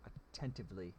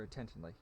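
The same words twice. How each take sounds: First: Attentively said fully, every syllable clear and quieter; careful correction. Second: Attentively slurred into "atentli", middle syllables dropped; slurred misreading. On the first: Corrects his own misread word. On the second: Misreads attentively while narrating. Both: Shown as a demonstration.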